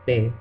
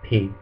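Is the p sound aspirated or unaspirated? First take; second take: unaspirated; aspirated. First: The p is released without a puff of air. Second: The p is released with a puff of air. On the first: The speaker calls it right. "it's not aspirated. So we say pe" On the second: The speaker calls it wrong. "instead of pe"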